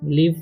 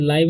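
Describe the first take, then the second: First: The vowel is a short 'ih'. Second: The vowel sounds like 'eye'. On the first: The speaker calls it right. "लिव पढ़ते हैं" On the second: The speaker calls it wrong. "इसे लाइव नहीं पढ़ना है"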